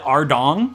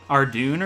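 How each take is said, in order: First: The name ends in an 'ong' sound. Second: The name ends in an 'oon' sound. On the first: This is how the speaker has always said it. "being the American I am, I've always called it Ardong" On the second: This is how the community says it. "That's how you pronounce it"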